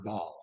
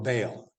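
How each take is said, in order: First: The vowel is not pronounced as a long A. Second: The vowel is pronounced as a long A. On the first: "other pronunciations are Baal" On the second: "in English, we tend to use that long A"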